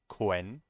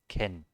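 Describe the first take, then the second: First: The syllable is said with a w sound. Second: The syllable is said without a w sound. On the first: The speaker calls it wrong. "It's not Quen" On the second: The speaker calls it right. "It's just Ken"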